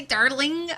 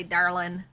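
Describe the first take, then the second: First: "darling" said higher with a questioning rise; the higher, rising "darling"; first darling. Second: "darling" said lower and settled; the lower, grounded "darling"; second darling. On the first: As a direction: lift "darling" up and let it rise at the end. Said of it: "Do you say". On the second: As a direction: drop "darling" down low and even. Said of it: "or do you say". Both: Shown as a demonstration.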